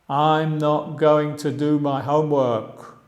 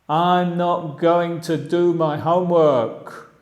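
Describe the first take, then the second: No difference in how they are said.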